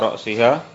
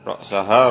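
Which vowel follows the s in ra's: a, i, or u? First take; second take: i; a. First: The vowel after the s is i. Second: The vowel after the s is a. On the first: Eaten up to the head. "hatta ra'siha baca majrur" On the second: The head was eaten too, as a joined item. "Ra'saha dibaca nasab"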